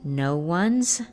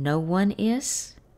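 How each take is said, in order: First: The verb is reduced to an attached s sound. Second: The verb is said as a separate full word. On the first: "Las contracciones son" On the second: "En inglés las frases son"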